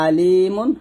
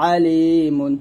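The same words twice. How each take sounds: First: আলিমুন with a light glottal আ; hamza version. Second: আলিমুন with a pressed, thin throat আ; pressed ain. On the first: Teacher repeating the hamza take. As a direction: say আলিমুন plainly from the top of the throat. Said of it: "এটা হচ্ছে". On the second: Teacher repeating the ain take. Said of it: "একটু চাপ দিয়ে চিকন করে বলবো". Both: Shown as a demonstration.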